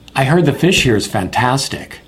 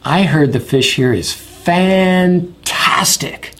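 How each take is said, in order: First: It is said at a natural, even pace. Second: It is stretched out and sounds excited.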